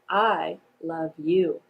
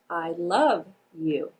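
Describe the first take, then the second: First: The emphasis falls on both I and you. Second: The emphasis falls on the word love. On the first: "I'm going to place the emphasis on the word I and you" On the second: "place the emphasis on the word love"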